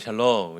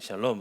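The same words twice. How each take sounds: First: The greeting sounds warm and glad. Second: The greeting sounds stiff and formal. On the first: The speaker knows the person. "이렇게 아주 반갑게 인사합니다" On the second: The speaker does not know the person well. "딱딱하게"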